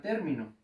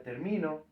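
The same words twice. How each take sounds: First: "término" stressed on the first syllable, TÉR-mi-no. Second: "termino" stressed on the middle syllable, ter-MI-no; wrong stress on MI. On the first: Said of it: "poner un acento en la E". ("término" con acento en la primera sílaba, TÉR) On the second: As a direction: say "termino" without the accent, weight on MI. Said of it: "porque si no diría termino". ("termino" con acento en la sílaba MI, ter-MI-no) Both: Shown as a demonstration.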